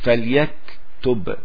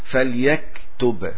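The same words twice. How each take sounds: No difference in how they are said.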